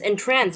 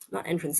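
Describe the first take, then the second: First: It is said as the verb meaning captivate. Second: It is said as the noun meaning a door. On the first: To captivate someone. The speaker calls it right. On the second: A way in, like a door. The speaker calls it wrong.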